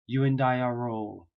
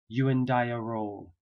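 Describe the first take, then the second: No difference in how they are said.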